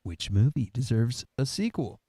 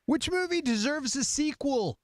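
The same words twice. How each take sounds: First: Much lower, playful reading; low-pitched question. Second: Much higher, playful reading; high-pitched question. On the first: Host reading out the next question, playfully low-pitched. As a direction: drop the question into a low register. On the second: Host reading out the next question, playfully high-pitched. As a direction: read the question up in a high register. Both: Pretend. Question repeated in three registers.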